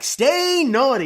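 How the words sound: It is said in a high-pitched voice. "that's too high"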